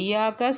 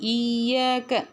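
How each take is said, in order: First: The y sound is short and single. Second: The y sound is held and doubled. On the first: The speaker calls it wrong. "இயாக்கா சொல்லாமல்" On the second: The speaker calls it right. "இய்யாக கவனிச்சு ஓதுங்க"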